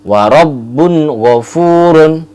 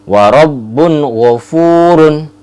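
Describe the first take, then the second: The two takes are said the same way.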